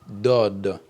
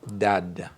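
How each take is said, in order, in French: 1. La première consonne est emphatique, avec une voyelle plus sombre. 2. La première consonne est simple, avec une voyelle claire. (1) "ça se lit dod" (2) "et non dad"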